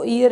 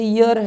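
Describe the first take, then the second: First: The word starts directly with a vowel sound. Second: The word starts with a 'y' sound. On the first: The speaker calls it wrong. "इसको ईयर नहीं बोला जाता" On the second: The speaker calls it right. "ये ईयर है"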